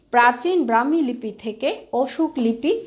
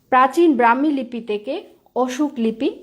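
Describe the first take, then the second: No difference in how they are said.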